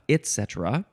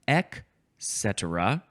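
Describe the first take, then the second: First: A T sound ends the first syllable. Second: No T sound ends the first syllable.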